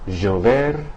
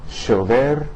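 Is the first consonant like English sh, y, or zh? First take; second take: zh; sh. First: The first consonant sounds like s in pleasure. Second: The first consonant sounds like English sh. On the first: "the S in the English word like pleasure" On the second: "the S H sound uh, of the English word cashier"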